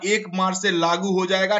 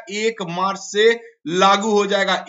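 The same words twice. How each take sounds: First: Said in the usual way. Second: एक मार्च से लागू हो जाएगा said slowly and louder, each word weighted; spelling out the key date for students; slow emphatic repeat. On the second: Shown as a demonstration. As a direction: drill the date home slowly.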